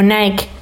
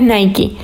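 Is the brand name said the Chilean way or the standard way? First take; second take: Chilean; standard. First: The name is said the usual Chilean way. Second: The name is said the standard way. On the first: This is how people commonly say it locally. The speaker calls it wrong. "en Chile le dicen más como Nike" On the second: This is the correct pronunciation. The speaker calls it right. "la pronunciación correcta es Nike"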